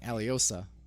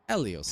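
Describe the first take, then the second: First: The name ends with an added 'a' sound. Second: The name ends without a final vowel sound. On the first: The speaker calls it wrong. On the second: The speaker calls it right.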